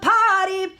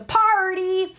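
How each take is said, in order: First: The R sound after the vowel is dropped. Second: The R sound after the vowel is pronounced. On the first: "removing the R's in like potty" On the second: "as opposed to party"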